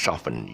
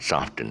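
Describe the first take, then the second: First: No t sound is heard in the middle. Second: A t sound is heard in the middle. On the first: The speaker calls it right. "it's just soften. You take off the T" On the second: The speaker calls it wrong. "it's not soften"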